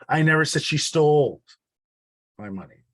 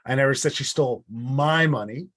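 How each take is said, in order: First: The word 'stole' carries the main stress. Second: The word 'my' carries the main stress. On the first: It was given, not taken. "It wasn't stolen, it was given" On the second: It was someone else's money. "It wasn't my money that was stolen, it was theirs"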